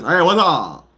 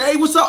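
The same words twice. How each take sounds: First: It is said imitating the uncle's voice. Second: It is said in the speaker's plain voice.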